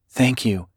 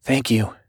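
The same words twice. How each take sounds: First: Purred, sultry thank you; purring. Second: Breathy voice. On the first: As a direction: purr it seductively. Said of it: "Miss Couch purred". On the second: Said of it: "a breathy voice said". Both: A narrator's reading.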